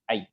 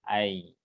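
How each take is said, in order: First: The diphthong is said abruptly and short. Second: The diphthong is slightly drawn out. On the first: The speaker calls it wrong. "Jadi tidak langsung ai" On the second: The speaker calls it right. "sedikit memanjang"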